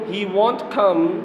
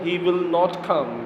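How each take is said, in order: First: The negative is contracted into one short word. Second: The negative is said as two separate words.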